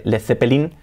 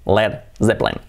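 First: "Led Zeppelin" as le-the-pe-LIN; Spanish th, four syllables in "Zeppelin"; Spanish-style pronunciation. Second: "Led Zeppelin" as led ZEP-lin; English pronunciation. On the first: Teacher recapping the version to replace, hispanicized. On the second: Teacher recapping the version to use, English pronunciation. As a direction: buzz the Z in "Zeppelin", drop middle E. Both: Shown as a demonstration. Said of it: "en lugar de".

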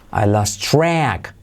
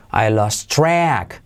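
No difference in how they are said.

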